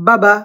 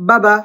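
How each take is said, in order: Both takes have the same delivery.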